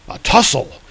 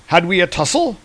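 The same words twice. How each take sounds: First: "tussle" falling at the end; offended echo. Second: "tussle" rising high at the end; puzzled question. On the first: Thor correcting Hercules, "tussle" falling in rebuke. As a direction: throw "tussle" back with a falling tune. Thor throws the word back. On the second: Drunk god failing to remember a rival, "tussle" rising in question. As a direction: ask it with "tussle" lifted. Hercules asks, Thor echoes it. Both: Retold or imitated.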